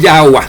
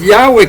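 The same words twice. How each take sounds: First: Yahweh said as "YAH-wah"; Yahweh with final "wah"; Yahweh ending in -wah. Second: Yahweh said "YAH-weh"; Yahweh with final "weh"; Yahweh ending in -weh. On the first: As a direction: end Yahweh on an A sound. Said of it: "que el nombre no es Yahweh". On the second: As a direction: end Yahweh on an E sound. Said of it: "el nombre no es Yahweh". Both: Shown as a demonstration.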